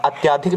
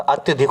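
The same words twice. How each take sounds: First: अत्याधिक said with a long aa after त्य; the wrong अत्याधिक, long aa in the middle; wrong form shown. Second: अत्यधिक said with a short a after त्य; the right अत्यधिक, short a, no long aa; correct form. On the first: Teacher to SSC students, saying the wrong अत्याधिक with long aa. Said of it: "अत्याधिक नहीं होता". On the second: Teacher to SSC students, modelling the correct अत्यधिक with short a. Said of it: "अत्यधिक होता है". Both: Shown as a demonstration.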